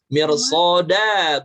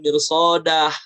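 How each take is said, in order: First: The word ends on a plain open vowel. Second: The word ends with an added breathy h. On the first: The speaker calls it right. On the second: The speaker calls it wrong. "bukan mirsodah. mad iwadnya jangan sampai ditambahin huruf H"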